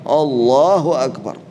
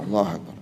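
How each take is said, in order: First: It is said loudly. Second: It is said softly.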